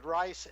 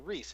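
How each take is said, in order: First: The vowel sounds like the 'i' in 'ice'. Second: The vowel sounds like the 'ee' in 'see'. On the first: This is the German and Danish way of saying it. "when I speak German and, and Danish uh, to to say rice" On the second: This is the English way of saying it. "speaking English, I have a tendency to say Reese"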